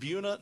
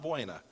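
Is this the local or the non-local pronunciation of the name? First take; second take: local; non-local. First: The name is said the local way. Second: The name is said the non-local way. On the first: This is how the town's residents say it. The speaker calls it right. "They pronounce it Buena" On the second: This is not how the town's residents say it. The speaker calls it wrong. "not Buena"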